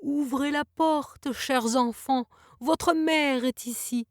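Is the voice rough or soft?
soft. The voice sounds soft and gentle.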